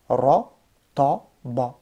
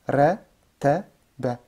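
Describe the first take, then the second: First: All three syllables sound heavy and dark. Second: All three syllables sound light and thin. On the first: "je te lis tout lourd" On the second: "Je lis tout léger"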